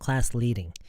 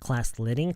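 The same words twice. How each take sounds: First: The vowel in 'leading' is long and flat. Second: The vowel in 'leading' is short and clipped. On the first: The speaker calls it right. "it has to be more flat, longer" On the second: The speaker calls it wrong. "not class leading"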